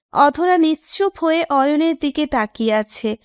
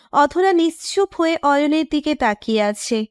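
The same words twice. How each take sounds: The two takes are said the same way.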